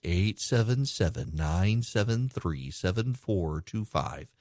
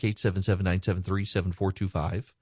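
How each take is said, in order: First: The number is read slowly. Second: The number is read fast.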